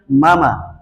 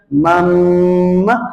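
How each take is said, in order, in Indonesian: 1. Bunyi m pendek dan biasa saja. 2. Bunyi m ditahan lama dan sengau. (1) "di bawah jam sembilan malam" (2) "Di atas jam sembilan malam malam Jumat"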